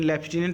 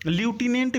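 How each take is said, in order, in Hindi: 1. पहला अक्षर 'left' जैसा सुनाई देता है। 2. पहला अक्षर 'loo' जैसा सुनाई देता है। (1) "लेफ्टिनेंट ज़्यादा सही रहेगा" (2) "ल्यूटिनेंट भी इसको पढ़ सकते हैं"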